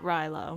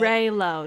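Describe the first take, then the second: First: The first syllable sounds like 'rye'. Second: The first syllable sounds like 'ray'. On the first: The speaker calls it wrong. "not Rilo" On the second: The speaker calls it right. "Raylo, not Rilo"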